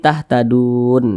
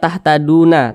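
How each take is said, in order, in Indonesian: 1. Kata ini diakhiri dengan konsonan n. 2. Kata ini diakhiri dengan vokal tambahan. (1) "tapi tahtadun" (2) "Jangan dibaca tahtaduna"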